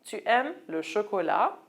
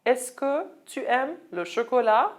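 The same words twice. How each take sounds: First: "Tu aimes le chocolat?" with a gentle rise at the end; rising question tune. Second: "Est-ce que tu aimes le chocolat?" said slowly, rising on "chocolat"; slow, clear demo. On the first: Teacher gives the plain rising question before adding est-ce que. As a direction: ask it by tune alone. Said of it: "So imagine I want to say". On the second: Teacher slowly models est-ce que for French students. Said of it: "Then I change it to". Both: Shown as a demonstration.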